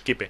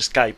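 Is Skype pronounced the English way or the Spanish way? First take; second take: Spanish; English. First: The word is pronounced with Spanish-style sounds. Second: The word is pronounced with English-style sounds. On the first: The speaker calls it wrong. "sin querer tiendes a castellanizar la pronunciación" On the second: The speaker calls it right. "Pero es Skype en todo el planeta"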